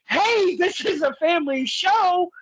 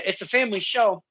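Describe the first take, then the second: First: High-pitched, drawn-out heckle from the crowd; mock-scandalized yell, pitched well up; retold yell. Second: Said in the usual way. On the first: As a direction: call it out high like a fan yelling at the ring. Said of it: "boy, oh boy, I yell". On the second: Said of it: "then I kinda reiterate".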